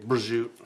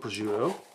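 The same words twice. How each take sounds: First: It is said with a South Philly pronunciation. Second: It is said with a standard pronunciation.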